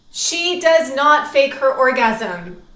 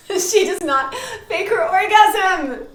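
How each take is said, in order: First: Loud, slow, every word weighted; emphatic rule. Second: High, loud, drawn out through laughter; laughing exclamation. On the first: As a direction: lay down the rule firmly, word by word. States her first emphatic rule. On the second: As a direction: cry out the rule, cracking up. Repeats the rule while laughing. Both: Real, not acted.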